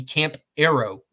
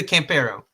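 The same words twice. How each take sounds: First: Camp Arrow said as two plain English words, camp plus arrow; anglicized name. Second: Campero said the Spanish way, kahm-PEH-roh; Spanish pronunciation. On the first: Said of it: "If you hate Spanish". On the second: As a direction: give Campero its Spanish vowels and stress on PE. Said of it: "if you are not inclined to Spanish". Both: Shown as a demonstration.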